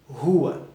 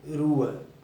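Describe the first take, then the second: First: The first R is a strong, harsh sound. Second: The first R is a weak, light sound. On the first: The speaker calls it right. "mas sim rua; esse R sempre vai ter o som forte" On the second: The speaker calls it wrong. "Perceba que não é"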